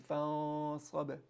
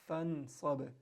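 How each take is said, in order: First: The n sound is hidden, not fully pronounced. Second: The n sound is pronounced clearly.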